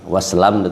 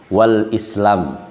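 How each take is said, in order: First: The 'i' of Islam is dropped entirely. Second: The 'i' of Islam is clearly pronounced. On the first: The speaker calls it wrong. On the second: The speaker calls it right. "i-nya itu harus dibaca"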